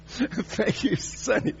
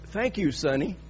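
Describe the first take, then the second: First: Laughing through a put-on little old lady voice; imitating the old lady while cracking up; old lady thanks. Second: Said in the usual way. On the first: The old woman thanks the preacher, imitated laughing. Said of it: "and she says". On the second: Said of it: "she looks up at me and she says".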